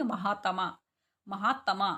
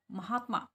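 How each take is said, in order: First: महात्मा as "ma-haa-ta-maa"; full-ta mispronunciation. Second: महात्मा as "ma-haat-maa", three syllables; half t run straight into "maa" in महात्मा; actual pronunciation. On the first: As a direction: give महात्मा a separate full "ta". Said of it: "अगर हम इसको पूरा sound बोलते हैं". (महात्मा को "महा-तमा" बोलना) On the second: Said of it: "और हम बोलते कैसे?". (महात्मा में आधा त) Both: Shown as a demonstration.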